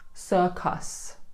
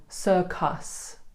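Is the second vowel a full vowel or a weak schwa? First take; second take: full vowel; full vowel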